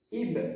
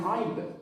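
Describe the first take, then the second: First: It begins with a light glottal stop. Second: It begins with a deep throat ain sound. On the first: The speaker calls it right. "Ib, ib, jangan aib" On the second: The speaker calls it wrong. "Kalau aib nanti ain ya"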